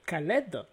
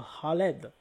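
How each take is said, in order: First: The first sound is a plain K. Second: The first sound is throaty, like an R. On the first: This is how we say it. "nous, on va dire Khaled" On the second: This is how Arabic speakers say it. "Donc le K, un peu comme un R"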